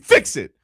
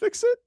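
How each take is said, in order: First: It is said in an angry, demanding tone. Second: It is said in a gentle, polite tone. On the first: It is an irritated demand. "my tone is usually fix it" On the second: It is a kind request. "I'm asking nicely"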